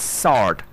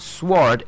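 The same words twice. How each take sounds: First: "sword" with silent w, as sord; correct pronunciation. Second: "sword" with the w sounded; wrong pronunciation. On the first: Teacher correcting the word, proper pronunciation. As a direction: say "sword" with s straight into the vowel. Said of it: "it's sword". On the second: Teacher showing what it's not, mispronounced. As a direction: say "sword" with an sw start, like swore. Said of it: "it's not sword". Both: Shown as a demonstration.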